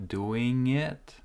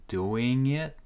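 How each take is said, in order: Both takes have the same delivery.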